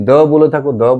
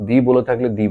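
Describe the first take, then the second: First: The said as "duh" both times; "thuh" form. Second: The said as "dee" both times; "thee" form. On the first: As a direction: say the with a neutral "uh" vowel. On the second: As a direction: say the with a long "ee" vowel. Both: Shown as a demonstration. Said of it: "কখন the হয় কখন the হয়".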